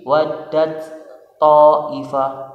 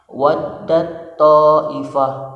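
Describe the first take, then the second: First: The first t is pronounced separately. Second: The first t merges into a doubled t. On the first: The speaker calls it wrong. "tidak boleh lagi waddat ta'ifah" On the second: The speaker calls it right. "langsung masuk, ... idgham ke huruf selanjutnya sehingga jadi tasydid"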